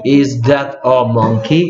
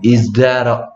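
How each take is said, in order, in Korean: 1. 각 단어를 따로따로 또박또박 말해요. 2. 단어들을 매끄럽게 이어서 말해요. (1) "하나씩 하면 is 이렇게 is that a monkey 이렇게 되는데" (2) "영어에서는 is that a 이게 이렇게 붙어버려요"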